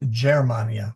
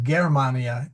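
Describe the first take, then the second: First: The word begins with a soft J-like G. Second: The word begins with a hard G sound. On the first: The speaker calls it right. "it's a soft G" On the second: The speaker calls it wrong. "so it's not Germania"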